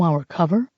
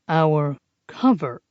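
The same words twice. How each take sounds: First: Said in the usual way. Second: Slow and patient, spelling it out; slowly, as to a small child. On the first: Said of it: "he repeated slowly". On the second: Acted. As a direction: drag each word as if explaining to a child. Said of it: "he repeated slowly, as if talking to a small child".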